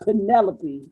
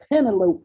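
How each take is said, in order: First: The ending does not rhyme with cantaloupe. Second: The ending rhymes with cantaloupe. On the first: The speaker calls it wrong. "not Penelope" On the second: The speaker calls it right. "like cantaloupe"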